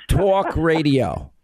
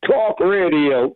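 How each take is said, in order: First: "talk radio" in slow, exaggerated New York accent. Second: Slow, lower attempt at New York "talk radio"; failed New York accent. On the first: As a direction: stretch "talk" with a thick New York vowel. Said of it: "say it in a New York accent". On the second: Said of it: "It's gotta be talk". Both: Shown as a demonstration.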